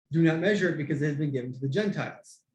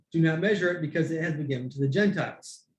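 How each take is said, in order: Both takes have the same delivery.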